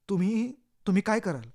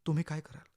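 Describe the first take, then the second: First: Louder, stumbling repeat with weight on काय; urgent repeat. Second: Said in the usual way. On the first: A narrator's reading. Narrator pushing the listener to decide, urgent stress on काय. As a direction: press the listener, hammering काय.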